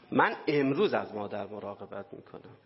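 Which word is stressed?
امروز. The stress falls on the word for today.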